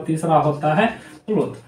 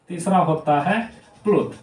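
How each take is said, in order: Both takes have the same delivery.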